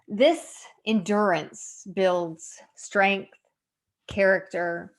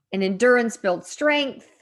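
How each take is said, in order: First: Very slow, with pauses between words; slow, deliberate emphasis. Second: Said in the usual way. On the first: Real, not acted. Woman applying the verse to her own life, slow and deliberate. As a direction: weigh each word of the verse slowly.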